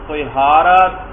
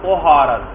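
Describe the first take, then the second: First: The first vowel is i, as in tihara. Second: The first vowel is u, as in tuhara. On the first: "قا کے کسرہ کے ساتھ" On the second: "قا کے ضمہ کے ساتھ"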